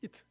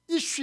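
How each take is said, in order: First: The word ends with a 't' sound. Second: The word ends with an 'sh' sound. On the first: "이트라고 발음한 거예요" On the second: "그 사람 할 때 이슈 이렇게 해야 되는데"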